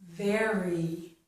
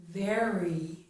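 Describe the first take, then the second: No difference in how they are said.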